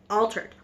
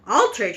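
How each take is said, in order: First: Said in the usual way. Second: Altered said sharper and louder with a falling end; Altered punched with a fall; shouted. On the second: A narrator's reading. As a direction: snap Altered out as a correction. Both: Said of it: "shouted Mister Jenkins".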